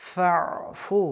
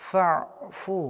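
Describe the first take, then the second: The two takes are said the same way.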